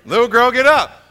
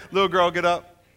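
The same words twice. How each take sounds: First: Raised, louder simple command; just speak it with authority; firm command. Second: Said in the usual way. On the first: Shown as a demonstration. Jesus raising the girl, louder firm command. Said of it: "That's it". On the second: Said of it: "all he had to do is come and say".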